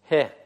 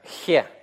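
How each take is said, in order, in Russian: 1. Первый согласный — мягкий, придыхательный звук. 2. Первый согласный — резкий, хриплый гортанный звук. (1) "Произносится как придыхание" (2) "я не говорю ее как хе. Я не говорю х, как слово хлеб в русском языке"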